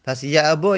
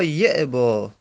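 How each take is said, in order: First: یعبا said as ya'ba, with a; fatha reading demo. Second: یعبا said as yi'ba, with i; kasra reading demo. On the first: Teacher reading یعبا as ya'ba for students. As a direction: say یعبا with an open a on the first syllable. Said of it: "گفتن". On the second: Teacher reading یعبا as yi'ba for students. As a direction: say یعبا with an i on the first syllable. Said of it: "به کسر هم خوندند". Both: Shown as a demonstration.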